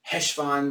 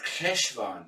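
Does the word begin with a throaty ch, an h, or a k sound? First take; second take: h; ch. First: It begins with a plain h sound. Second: It begins with a throaty ch sound. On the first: "just say Heshvan when they're saying it quickly with an H" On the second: "it's K, as in the Germanic CH, like Bach"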